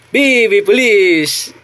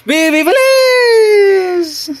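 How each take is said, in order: First: Chanted, slow, stretched sing-song call; drawn-out chant. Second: Chanted, much higher and very slow, long stretched vowels; chanted, hold every syllable way up high; very high drawn-out chant. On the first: Chanted, mother calling the baby in a slow sing-song. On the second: Mother stretching the chant out to delight the baby. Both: Acted.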